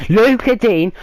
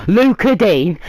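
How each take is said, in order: Both takes have the same delivery.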